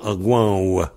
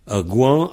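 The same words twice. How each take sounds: First: "gouan ou" with a W glide at the end; V prononcé W. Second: "Un gouan" with no final W; V final muet. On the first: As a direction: close "gouan ou" on a rounded W. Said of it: "le V, on le prononce W". (« gouan ou » avec un W final) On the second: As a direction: end "gouan" on its nasal vowel. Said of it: "ou on le prononce pas". (« Un gouan » sans W à la fin) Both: Shown as a demonstration.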